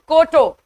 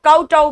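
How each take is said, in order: First: The first syllable has an 'oh' vowel. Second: The first syllable has an 'ow' vowel.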